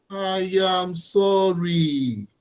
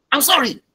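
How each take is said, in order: First: Mean it, give it time; slow heartfelt "I am sorry"; sincere apology. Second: "I'm sorry" tossed off quick and higher, falling on "sorry"; quick, higher, dismissive "I'm sorry"; offhand apology. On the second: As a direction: throw it away, not meaning it. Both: Shown as a demonstration. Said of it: "the manner you have said them is totally different".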